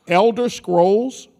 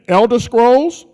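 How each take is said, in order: First: Elder Scrolls, slow, rising like a question to the crowd; hype call. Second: Elder Scrolls slow, rising and a bit louder; louder hype call. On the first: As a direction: stretch it out to get cheers. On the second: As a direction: pump up the crowd on the second try. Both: Shown as a demonstration. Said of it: "let me try this again".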